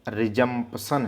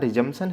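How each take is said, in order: First: The p sound is clearly pronounced. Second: The p sound is left out. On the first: This is how the word is spelled. "लिखना रिजम्पशन है" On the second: This is how the word is spoken. "बोलना रिजम्पशन है ... पी इसमें silent हो जा रहा है"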